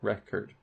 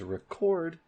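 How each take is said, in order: First: The stress is on the first syllable. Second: The stress is on the second syllable. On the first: It is a noun. "a record has stress on the first syllable" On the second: It is a verb. "record has stress on the second syllable"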